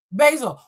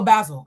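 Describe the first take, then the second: First: "Basil" said with a long ay, BAY-zil; first-guess pronunciation. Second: "Basil" said with a short a, BAZ-il; corrected pronunciation. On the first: Reader trying out a viewer's name, "Basil" as BAY-zil. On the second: Reader correcting a viewer's name, "Basil" as BAZ-il. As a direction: say "Basil" to rhyme with dazzle. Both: Real, not acted. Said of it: "make sure I'm pronouncing it correctly".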